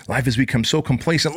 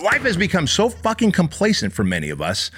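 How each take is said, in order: First: Said in the usual way. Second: Higher, hitting "so fucking complacent" hard; escalating rant, "complacent" driven home; exasperated emphasis. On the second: Real, not acted. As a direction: pile on the frustration, stress "fucking". Repeats line, then escalates.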